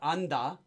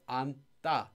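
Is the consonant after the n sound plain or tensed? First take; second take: plain; tensed. First: The d sound after n is plain. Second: The d sound after n is tensed. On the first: The speaker calls it wrong. "it's not" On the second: The speaker calls it right. "it's pronounced as"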